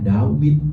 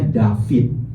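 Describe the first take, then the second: First: The middle consonant is a W sound. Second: The middle consonant is a V sound. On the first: "mereka membacanya Dawid" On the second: This is the modern reading, influenced by Aramaic. "orang Ibrani modern membacanya David"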